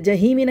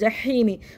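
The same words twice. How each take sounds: First: The middle h sound is light and plain. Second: The middle h sound is throaty and tense. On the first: The speaker calls it wrong. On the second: The speaker calls it right.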